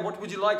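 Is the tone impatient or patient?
impatient. It is said in a rushed, impatient tone.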